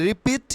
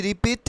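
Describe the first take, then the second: Both takes have the same delivery.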